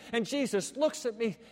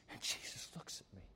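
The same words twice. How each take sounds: First: Said in the usual way. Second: Breathless whisper, much lower and softer; hushed remorseful whisper. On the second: Acted. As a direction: breathe it out in awe. Peter remembering, whispered.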